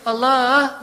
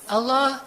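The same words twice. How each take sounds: First: It is said coaxingly, with a slight melody. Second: It is said plainly, without melody.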